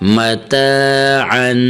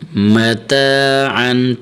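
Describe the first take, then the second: Both takes have the same delivery.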